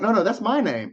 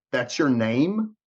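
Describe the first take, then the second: First: Higher-pitched imitated protest; insistent correction. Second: Slow, incredulous echo; disbelieving question. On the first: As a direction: correct them brightly, stressing MY, as the agent. Acting out agent's correction. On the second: Retold or imitated. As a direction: draw out "That's your name?" in disbelief. Acting out his disbelieving question.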